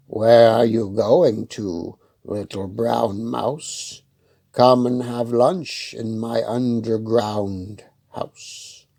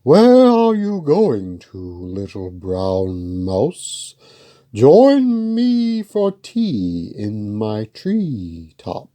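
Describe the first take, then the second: First: Slow, lightly voiced fox, coaxing; sly fox. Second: A grand owl drawing out the invitation; hooting owl. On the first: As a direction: draw the invitation out slowly like a lightly played fox. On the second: Acted. Owl voiced in story.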